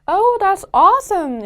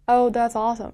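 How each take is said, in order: First: It is said with lively, acted-out energy. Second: It is said flatly, without much energy.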